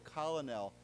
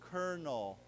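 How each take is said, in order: First: It sounds like collo-nel, with an L sound. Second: It sounds like kernel, with an R sound. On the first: The speaker calls it wrong. "it's not pronounced that way, right? We don't say colonel" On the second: The speaker calls it right. "we say colonel. Okay, so like K E R N A L"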